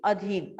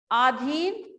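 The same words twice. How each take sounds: First: अधीन with a short first vowel, falling end; correct form. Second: अधीन with a long first vowel, rising end; wrong spelling read out. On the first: Teacher gives class the correct अधीन, falling finish. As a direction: say the right अधीन as a-dheen. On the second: Teacher shows class the misspelled अधीन, questioning rise. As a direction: sound out the faulty अधीन as aa-dheen. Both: Shown as a demonstration. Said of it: "आजाद गलत है".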